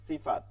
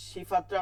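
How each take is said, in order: First: সিফাত begun with a clean, thin "s"; dental S. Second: সিফাতটা begun with a hushing "sh"; SH version. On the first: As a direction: say সিফাত as "Sifat", not hushed. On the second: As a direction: say সিফাতটা as "Shifat-ta". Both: Shown as a demonstration. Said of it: "সিফাত বলি না".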